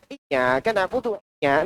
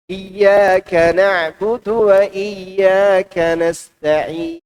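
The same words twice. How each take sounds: First: Mock recitation in a put-on Chinese intonation, softer; imitated Chinese accent. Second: Slow, measured chant of the verse; sung, recite it slowly with long held Arabic vowels; sung, proper Quran recitation. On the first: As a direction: misread the verse like a caricatured Chinese speaker. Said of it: "Nggak mungkin dia baca begitu". (tiruan bacaan Quran berlogat Cina) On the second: Shown as a demonstration. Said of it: "Dia baca sama juga dengan bacaan kita". (sung, tilawah Al-Quran yang benar, perlahan)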